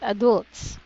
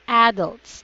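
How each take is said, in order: First: The stress is on the second syllable. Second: The stress is on the first syllable. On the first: The speaker calls it wrong. "This one is not adults" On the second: The speaker calls it right. "There's a stress on the first syllable"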